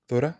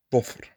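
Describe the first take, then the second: First: Dhura with a light, voiced dh; plain dh. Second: Dhufr with a heavy, dark emphatic dh. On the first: Teacher contrasting plain dh in dhura. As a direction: dhura crisp and front. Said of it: "non-emphatic letter". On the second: Teacher contrasting emphatic dh in dhufr. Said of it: "the emphatic". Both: Shown as a demonstration.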